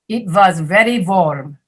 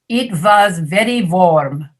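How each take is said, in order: No difference in how they are said.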